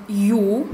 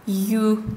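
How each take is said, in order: First: Back-vowel «ю», a plain yu; teacher's demo of hard «ю»; hard-word ю. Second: Fronted, soft «ю», like yü; teacher's demo of soft «ю»; soft-word ю. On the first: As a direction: say «ю» as in hard Tatar words. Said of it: "в твёрдых словах". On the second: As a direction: say «ю» as in soft Tatar words. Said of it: "а в мягких словах". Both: Shown as a demonstration.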